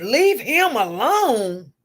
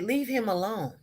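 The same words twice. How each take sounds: First: Slow, drawn-out disbelieving repeat, louder; incredulous echo. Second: Said in the usual way. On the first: Retold or imitated. Staff member echoing the nurse, mock outraged disbelief. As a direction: stretch it out like you can't believe your ears. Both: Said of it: "he couldn't believe I said".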